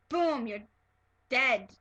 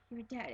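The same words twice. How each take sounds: First: Brutal. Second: Slow. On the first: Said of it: "It wasn't like a brutal". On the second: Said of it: "It was, like, really slow". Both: Shown as a demonstration.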